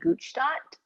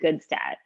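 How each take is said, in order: First: The name is said the original European way. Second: The name is said the North American way. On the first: "The actual like pronunciation back in like Europe would be" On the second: "over here in North America, we say"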